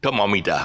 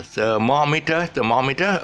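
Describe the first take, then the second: First: "thermometer" said quickly, with an open "-ta" ending; local pronunciation. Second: "thermometer" stretched out on a rising, higher tune; stressed syllable demo. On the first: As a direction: toss off "thermometer" as "tuh-mo-mi-ta", fast and falling. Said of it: "we would pronounce it as". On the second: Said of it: "that's the stress". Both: Shown as a demonstration.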